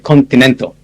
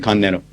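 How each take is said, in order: First: It is said carefully, every sound made clear. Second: It is said halfway between relaxed and careful. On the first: "I try to be clear. So I never say continental anymore. I say continental" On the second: "I compromise, I say continental"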